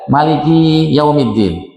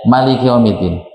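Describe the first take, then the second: First: A vowel in 'Maliki' is drawn out long. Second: The vowel in 'Maliki' is kept short. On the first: "ki-nya panjang ya" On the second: "mimnya pendek seperti Malikin Nas"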